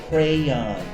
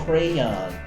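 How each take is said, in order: No difference in how they are said.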